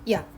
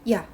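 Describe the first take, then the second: First: A short glide merges straight into one syllable. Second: The same.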